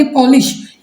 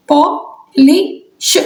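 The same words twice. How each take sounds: First: Said in the usual way. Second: "polish" very slow, in separated pieces: पॉ, लि, श; "polish" sounded out slowly, final श on its own; syllable by syllable. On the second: Shown as a demonstration. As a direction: break "polish" apart with long pauses. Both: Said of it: "इसमें आपके कितने बन गए".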